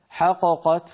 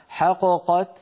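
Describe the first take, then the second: First: The first qaf bounces, giving two separate qafs. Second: The same.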